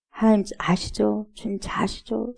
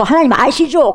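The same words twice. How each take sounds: First: Soft, trusting appeal to God; 나직한 기도. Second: Louder, higher appeal to God; 뭉뚱그린 기도. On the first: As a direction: murmur it as a private prayer, fading. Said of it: "제가 이런 말 저런 말". (나직이 아뢰듯) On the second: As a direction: blurt it all out in one go. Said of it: "몽땅해가지고". (한꺼번에 크게 아뢰듯) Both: Acted.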